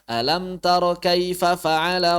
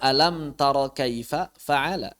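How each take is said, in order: First: Kaifa and fa'ala are run together. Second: Kaifa and fa'ala are kept separate. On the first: It sounds like a word is repeated. The speaker calls it wrong. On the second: The two words are heard as distinct. The speaker calls it right. "Padahal kalimatnya"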